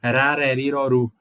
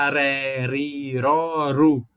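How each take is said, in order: First: Rareriroru said again a little faster, tongue tip R; repeat of the tongue R. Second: Rareriroru said very slowly with a tapped tongue R; rareriroru, each syllable drawn out with the tongue tip; modern tongue R. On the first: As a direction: rareriroru repeated at a clearer pace. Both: Shown as a demonstration. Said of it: "hoje em dia você pode falar".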